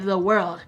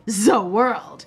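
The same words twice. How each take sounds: First: It is said plainly, with little energy. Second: It is said intensely, with hammy energy.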